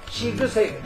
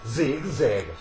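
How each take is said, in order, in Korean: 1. s 소리는 무성음이에요. 성대의 떨림 없이 나는 소리예요. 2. z 소리는 유성음이에요. 성대가 떨리는 소리예요.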